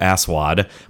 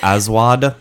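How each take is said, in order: First: The consonant after the first vowel is an S sound. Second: The consonant after the first vowel is a Z sound. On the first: "I only know how to say that as Aswad, but I'm certain that's not how you actually pronounce it" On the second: "it's more of a Z sound"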